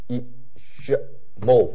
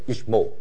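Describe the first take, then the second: First: The word is said with three syllables. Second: The word is said with two syllables. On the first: The speaker calls it wrong. "不是有三个音节，不是each more" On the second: The speaker calls it right. "不是三个音节，是each more"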